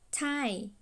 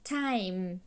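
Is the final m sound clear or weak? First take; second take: weak; clear. First: The final m is weak, lips not closed. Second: The final m is clear, lips fully closed. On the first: The speaker calls it wrong. "nếu mà các bạn không có ngầm hai cái môi lại á, thì chữ m này, âm m này nó không có tròn âm" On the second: The speaker calls it right. "các bạn phải ngầm hai cái môi lại á"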